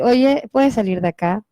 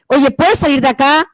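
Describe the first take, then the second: First: The voice sounds calm, not angry. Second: The voice sounds angry and forceful.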